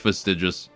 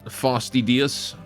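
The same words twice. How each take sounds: First: The middle consonant is a J sound. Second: The middle consonant is a plain D sound.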